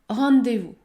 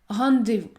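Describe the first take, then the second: No difference in how they are said.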